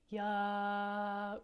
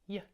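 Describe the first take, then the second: First: An extra uh vowel follows the y sound. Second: A short y sound with no vowel after. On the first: The speaker calls it wrong. "land on the uh part of the sound" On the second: The speaker calls it right. "a quick, fast sound"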